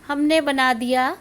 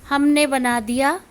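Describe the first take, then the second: Both takes have the same delivery.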